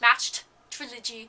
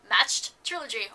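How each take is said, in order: First: Each sound is articulated very carefully and separately. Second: The sounds are blurred together into one quick run. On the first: "I feel like I'm over enunciating it" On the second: "Or I'm just throwing it all together"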